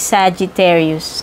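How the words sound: It is said with a fancy English pronunciation. "ang tamang pronunciation ng Sagittarius"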